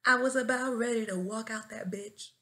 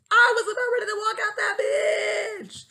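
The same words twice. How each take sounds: First: Said in the usual way. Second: High, loud dramatic shout; yelled outburst. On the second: Real, not acted. New teacher venting about nearly quitting, yelled outburst. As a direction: yell it out, stretching the last word.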